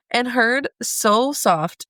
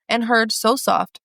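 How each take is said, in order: First: Very slow, fighting back tears; choked-up slow reading. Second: Slow, gentle, hushed reading. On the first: Real, not acted. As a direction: read it barely holding it together. Resumes reading after tearing up. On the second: Acted. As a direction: read it slowly and tenderly, savouring each word. Reading tender passage, getting emotional.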